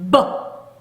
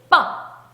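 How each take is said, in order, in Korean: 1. 터지기 전에 소리가 먼저 울려요. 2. 힘을 꽉 주고 울림 없이 터져요. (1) "힘을 모았다가 버 하고 터지는 거예요" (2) "이렇게 된소리 빠 요거랑은 또 다르죠"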